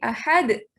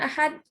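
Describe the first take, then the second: First: The final d is released with a bounce. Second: The final d stops flat without a bounce. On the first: The speaker calls it right. "harus mantul cara bacanya" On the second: The speaker calls it wrong. "Jangan ahad gitu aja"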